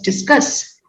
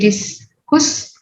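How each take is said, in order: First: The second vowel sounds like 'uh'. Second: The second vowel sounds like 'oo'. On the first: The speaker calls it right. "it is discuss" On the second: The speaker calls it wrong. "Do we say discuss? No"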